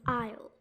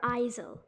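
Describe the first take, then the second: First: The s is silent. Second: The s is pronounced as a sound. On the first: The speaker calls it right. "we actually say it as isle" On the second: The speaker calls it wrong. "or isel"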